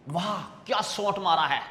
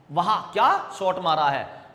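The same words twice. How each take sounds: First: Said in the usual way. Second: वाह क्या shot मारा है said as a slightly louder admiring cry, weight on क्या; mild exclamation. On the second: Shown as a demonstration. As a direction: cheer the shot, a bit louder. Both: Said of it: "ऐसा चिन्ह लगा लेते हैं हम पीछे".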